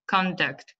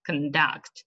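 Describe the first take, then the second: First: "conduct" as the noun, CON-duct; first-syllable stress. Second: "conduct" as the verb, con-DUCT; last-syllable stress. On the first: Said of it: "on the first syllable". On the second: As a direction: lean on the end of "conduct". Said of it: "The stress is on the last". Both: Shown as a demonstration.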